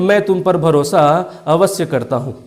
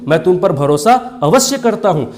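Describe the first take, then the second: First: It is said in a flat, ordinary tone. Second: It is said with strong, forceful emphasis. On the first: The speaker calls it wrong. "मैंने normal से ही बोल दिया" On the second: The speaker calls it right. "एम्फाटिक जोर देकर बोलता हूं"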